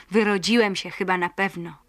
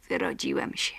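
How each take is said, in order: First: Said in the usual way. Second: Lower, quiet, to himself; low, distant inner voice; absent-minded repeat. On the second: Acted. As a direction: mumble it absently. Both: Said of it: "zaczął bezmyślnie powtarzać Paweł".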